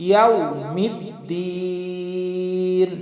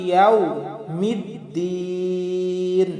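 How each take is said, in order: The two takes are said the same way.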